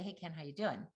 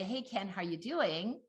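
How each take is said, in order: First: The greeting sounds flat and unenthusiastic. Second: The greeting sounds cheerful and warm. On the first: The speaker is not glad to see the listener. "I've said the same words" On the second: The speaker is glad to see the listener. "Oh, she's happy to see"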